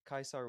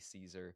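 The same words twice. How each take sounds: First: The name uses the ancient Latin pronunciation. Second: The name uses the modern Latin pronunciation. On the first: This is how it was said in Caesar's own time. "would have been the ancient Latin pronunciation" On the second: This is how it is said in later Latin. "The modern Latin version would be"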